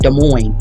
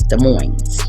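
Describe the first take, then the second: First: The final S of Moines is silent. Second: The final S of Moines is sounded. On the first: "They don't say the S" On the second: "I say the S"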